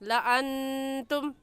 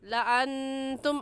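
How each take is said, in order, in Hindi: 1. अलिफ़ नहीं पढ़ा जाता, इसलिए स्वर छोटा है। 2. अलिफ़ नहीं पढ़ा जाता, इसलिए स्वर छोटा है।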